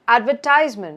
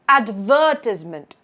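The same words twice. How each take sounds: First: The stress is on the third syllable. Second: The stress is on the second syllable. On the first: "the stress is on ties" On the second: "the stress moves to the first part of the word. It's in the ver"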